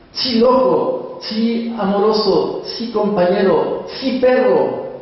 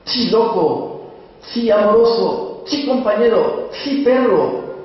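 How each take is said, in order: First: High, slow, coaxing calls to a beloved dog; tender talk to the dog. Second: High, slow, uneasy calls to the dog; half-frightened calling. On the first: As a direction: coo each name up high and let it fall. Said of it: "Yo lo llamo entre sotil y castellano". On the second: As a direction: coax the dog while scared. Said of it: "entre sotil y asustado". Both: Acted.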